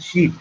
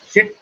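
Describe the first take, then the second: First: SHEET with a long, tense ee; long vowel in SHEET. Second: SHIT with a short, lax i; short vowel in SHIT. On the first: Colonel contrasts two words for learners, SHEET with long ee. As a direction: stretch the ee in SHEET. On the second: Colonel contrasts two words for learners, SHIT with short i. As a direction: say SHIT with the brief vowel of "sit". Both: Shown as a demonstration. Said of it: "S H I T and S H E E T".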